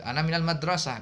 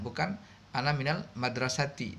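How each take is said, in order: First: The last word ends in a bare -ah. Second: The last word ends in a full -ati. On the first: This is the everyday spoken form. The speaker calls it right. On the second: This is the full form with the case ending. The speaker calls it wrong.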